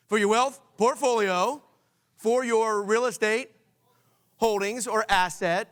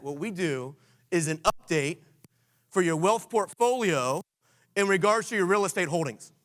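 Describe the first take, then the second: First: Emphatic call-out. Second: Slow, deliberate pitch line; slow script demo. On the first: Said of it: "just shout it out". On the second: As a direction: spell out the phrase slowly so they can learn it. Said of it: "let me challenge you with this". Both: Shown as a demonstration.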